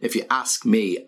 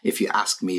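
First: The phrase is said with strong, forceful emphasis. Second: The phrase is said plainly, without extra emphasis. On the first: "if you want to put more stress on it" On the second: "this is usually when we use this expression"

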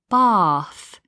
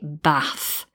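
First: The vowel is long. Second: The vowel is short. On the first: "in the south, we'd have a longer vowel" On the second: "in the north of England, they'd actually change the vowel sound"

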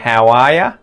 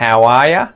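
First: 'You' is reduced to 'ya', with 'how' kept. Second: The same.

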